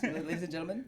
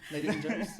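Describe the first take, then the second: First: Said in the usual way. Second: A laughing deliberate slip to ladies and germs-; joking slip. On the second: Shown as a demonstration.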